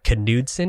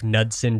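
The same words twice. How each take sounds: First: The name is said in its original style. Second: The name is said in an anglicized way. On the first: "I've heard it's like Knudsen is how you pronounce it" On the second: "just to be uh, Anglo-safe"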